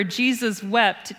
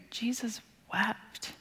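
First: Slowed down. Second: Slow, unvoiced whisper, much softer. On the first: Shown as a demonstration. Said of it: "we should not read over ... too quickly". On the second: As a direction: let the two words fall slowly in a hush. Verse repeated in hush.

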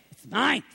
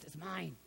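First: "It's mine." said louder with a rising end; loud possessive claim. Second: "It's mine." said much softer, falling; hushed possessive claim. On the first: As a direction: bark out "mine" as a warning. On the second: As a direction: breathe "mine" low, hugging the treasure. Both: Retold or imitated. Loud claim, then hushed claim.

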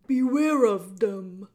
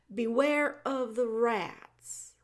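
First: Loud, slow booming warning; old jailer warning Meg about rats; shouted warning. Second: Slow, dutiful repeat of the warning; slow plain repeat. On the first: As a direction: boom the warning out. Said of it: "shouted Gregory". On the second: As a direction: echo his words back slowly. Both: Acted.

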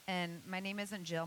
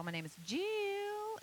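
First: Jill said as one quick syllable; plain one-syllable "Jill"; short Jill. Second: "Jill" stretched high and slow in a Tennessee drawl; "Jill" sung out long in a Southern drawl. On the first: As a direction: clip "Jill" to a plain single beat. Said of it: "It's three syllables". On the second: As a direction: draw out "Jill" over three syllables, Tennessee style. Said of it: "Granny Franny's from Tennessee". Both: Shown as a demonstration.

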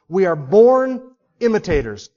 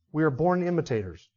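First: BORN stressed, louder and falling; emphatic declaration. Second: Softer, settled repeat of born imitators; quiet restatement. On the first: Preacher to congregation, emphatic stress on born. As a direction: hammer home that we are born imitators. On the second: Preacher to congregation, quietly restating the point. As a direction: let it land gently. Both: Shown as a demonstration.

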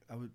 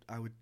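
No difference in how they are said.

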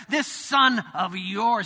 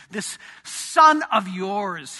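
First: Sneering son speaking of his brother; contemptuous. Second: Slow, scornful "This son of yours"; elder son disowning his brother; contemptuous. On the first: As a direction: drag the words out with scorn. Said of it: "Did you hear that?". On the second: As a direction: spit it out slowly with disdain. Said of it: "Can you hear the contempt on his voice". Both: Retold or imitated.

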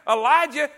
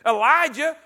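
No difference in how they are said.

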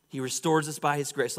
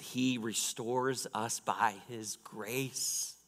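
First: Said in the usual way. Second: Drawn-out, measured emphasis; slow, deliberate point. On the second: Real, not acted. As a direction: lay out each word slowly for the congregation. States third point, then repeats it.

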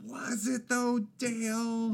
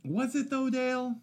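First: High put-on voice, stretched words; milk the mock skepticism, pitched way up; drawn-out teasing doubt. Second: High-pitched mock skepticism; pitched way up, doubting him playfully; teasing doubt. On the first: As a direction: needle him slowly in a high voice. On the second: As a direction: needle your friend in a squeaky put-on voice. Teasing doubt of friend's praise.

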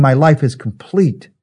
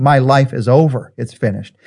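First: Slower, steady and sure; triumphant completion. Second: Defeated. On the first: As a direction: say it as a finished life, fulfilled. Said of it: "He was saying". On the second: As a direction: say it as if giving up, dropping away. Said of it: "words of defeat and failure". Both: Shown as a demonstration.

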